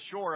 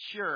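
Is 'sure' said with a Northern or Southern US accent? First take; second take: Southern; Northern. First: It is said with a Southern, shore-like vowel. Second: It is said with a Northern US vowel. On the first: "something that was on the seashore" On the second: "that's how Yankees say it"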